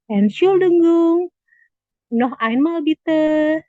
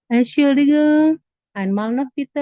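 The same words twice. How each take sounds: First: Slowed down and raised for the class; slow classroom model, projected; slow, loud model phrase. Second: Model phrase again. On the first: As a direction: sound out each syllable, loud and high. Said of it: "kita biasanya nanyanya". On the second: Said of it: "Kita bisa ngomongnya gini". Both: Shown as a demonstration.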